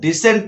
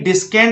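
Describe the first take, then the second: First: No k sound is heard after the s. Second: A k sound is pronounced after the s. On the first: The speaker calls it right. "डिसेंड पढ़ना है" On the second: The speaker calls it wrong. "डिस्केंड नहीं पढ़ना है आपको"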